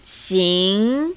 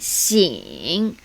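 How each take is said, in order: First: The syllable is said with tone two. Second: The syllable is said with tone three. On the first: "Tone two" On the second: "Tone three"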